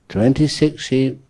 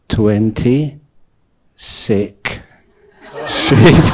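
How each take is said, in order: First: The phrase is said at normal speed. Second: The phrase is said slowly and separately. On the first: There were twenty-six sheep. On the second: There were twenty sheep that were sick.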